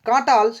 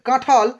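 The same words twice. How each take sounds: First: The middle consonant is an unaspirated t. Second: The middle consonant is an aspirated th. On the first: "অল্প প্রাণ বর্ণ ছিল ট" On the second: "উচ্চারিত হয়েছে ঠ এর মতো"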